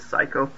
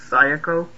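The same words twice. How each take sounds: First: The name is said quickly, syllables run together. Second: The name is said slowly, each syllable separate. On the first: "said quickly it comes out as Psycho" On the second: "I believe it's pronounced Psycho"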